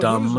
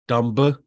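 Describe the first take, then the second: First: The word ends on the m, no b sound. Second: The word ends with a sounded b.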